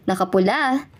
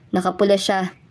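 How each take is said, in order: First: Nakapula lifted at the end as a question; questioning rise on nakapula. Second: Said in the usual way. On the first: Acted. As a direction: echo nakapula back, ending upward. Surprised echo question to cousin.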